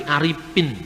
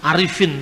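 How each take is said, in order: First: Aripin said with P replacing F; Sundanese P for F. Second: Arifin with a clear F; correct F. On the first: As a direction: imitate a Sundanese speaker saying Aripin. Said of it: "sulit untuk mengucapkan huruf F". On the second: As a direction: say Arifin with the F sound. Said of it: "dia tidak bisa ngomong misalnya". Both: Shown as a demonstration.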